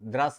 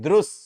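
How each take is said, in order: First: The first syllable has a plain 'ra' sound. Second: The first syllable has a 'ru' sound. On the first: The speaker calls it wrong. "कोई कोई इसे द्रस बोल देते हैं, द्रस द्रस नहीं है" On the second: The speaker calls it right. "रू है, र नहीं है"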